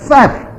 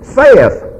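First: The word is said with one syllable. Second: The word is said with two syllables. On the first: The speaker calls it right. "That's Seth" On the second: The speaker calls it wrong. "Southern pastors are used to saying, saith"

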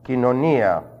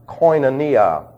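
First: The first syllable sounds like 'keen'. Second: The first syllable sounds like 'coin'. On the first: The speaker calls it right. "It's kin. ... pronounced as a long E" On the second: The speaker calls it wrong. "Sometimes pronounced koinonia. It's not coin"

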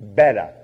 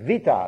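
First: The word begins with a b sound. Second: The word begins with a v sound. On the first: The speaker calls it wrong. "not Beta" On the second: The speaker calls it right. "the second letter of the Greek alphabet is Vita"

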